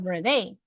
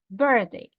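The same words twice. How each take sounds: First: The stress is on the second syllable. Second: The stress is on the first syllable. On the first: The speaker calls it wrong. "No digo birthday, no" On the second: The speaker calls it right. "el estrés de la palabra está en la primera sílaba"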